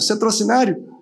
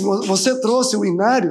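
First: The words are run together into one word. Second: Each word is pronounced separately and fully. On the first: It sounds like a person's name. The speaker calls it wrong. "Parecia um nome de uma pessoa" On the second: This is the intended question, asking about a hymnal. The speaker calls it right. "Ele quis perguntar assim"

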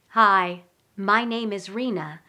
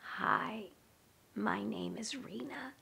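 First: The voice is full and supported by breath. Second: The voice is thin and strained, without breath. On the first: The speaker calls it right. "this is my voice on breath" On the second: The speaker calls it wrong. "this is what I sound like with no breath"

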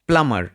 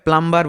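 First: The b sound is silent. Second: The b sound is pronounced. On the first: The speaker calls it right. "এটা সঠিক উচ্চারণ হচ্ছে প্লামার" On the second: The speaker calls it wrong. "অনেকে উচ্চারণ ভুল করে প্লাম্বার বলেন"

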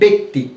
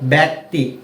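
First: The first vowel sounds like 'e' in 'bet'. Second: The first vowel sounds like 'a' in 'bat'. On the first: The speaker calls it right. "এই জন্য আমরা এটা কিভাবে পড়ছি?" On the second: The speaker calls it wrong. "এভাবে পড়ছি না"

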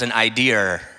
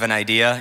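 First: It ends with an added R, Maine style. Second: It ends plainly, with no added R.

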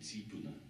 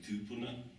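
First: The first vowel is an ee sound. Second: The first vowel is an oo sound. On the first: This is the form used on the east coast. "over on the east coast, where Carwin's from, they say tīpuna" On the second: This is the form used in the speaker's home region. "Where I come from, we say tūpuna"

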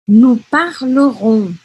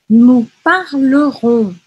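The two takes are said the same way.

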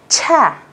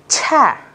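Both takes have the same delivery.

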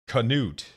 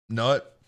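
First: The word starts with a hard K sound. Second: The word starts with an N sound, no K. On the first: "hard K" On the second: "I thought the K was silent"

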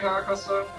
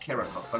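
First: The name is pronounced with German sounds. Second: The name is pronounced with English sounds.

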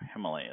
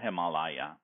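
First: The vowel after m is not 'ah'. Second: The vowel after m is a broad 'ah'. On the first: This is the common English form. "Himalaya is also correct" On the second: This follows the original source language. "ma as in father"

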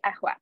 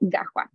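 First: It starts with a glottal stop. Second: It starts with a hard g sound. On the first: This is the Cairo and northern form. "in Cairo, Alexandria, or Qusayri, you would say ahwa" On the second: This is the southern Egyptian form. "in southern Egypt, so I mentioned the Sa'idi dialect, it would be gahwa"

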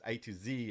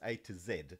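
First: The last letter is said the American way. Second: The last letter is said the South African way.

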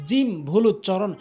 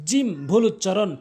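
The two takes are said the same way.

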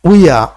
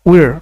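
First: It ends on a vowel with no r sound. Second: It ends with a clear r sound. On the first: "British ইংলিশে এই আর এর উচ্চারণ হবে না" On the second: "উই আ উচ্চারণ না করে র বলা যাবে"

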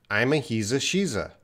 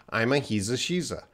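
No difference in how they are said.

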